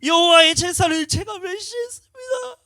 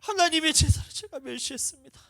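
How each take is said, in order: First: Very high, very loud, slow sobbing cry; sobbing confession. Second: Much higher, louder confession with tears; tearful confession. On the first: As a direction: wail the confession through tears. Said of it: "눈물이 펑펑 쏟아져요". (아주 높고 크게 천천히 흐느끼며 고백) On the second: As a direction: confess it to God breaking down. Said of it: "회개가 튀어나오는지". (훨씬 높고 크게 울먹이며 고백) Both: Retold or imitated.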